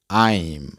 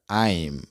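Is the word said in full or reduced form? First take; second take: full; full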